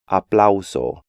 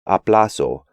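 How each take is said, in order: First: The au is said as a full glide. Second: The au is reduced to a plain a. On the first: The speaker calls it right. "when they should be" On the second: The speaker calls it wrong. "the A U combination is often just pronounced A"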